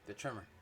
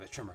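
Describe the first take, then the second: First: It is said in the speaker's ordinary voice. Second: It is said in a put-on character voice. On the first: The speaker calls it wrong. "I said in my voice" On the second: The speaker calls it right. "Did the Roland voice"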